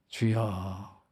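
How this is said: It is drawn out with a frustrated sigh. The speaker is exasperated and fed up. "답답하고 속이 부글부글할 때"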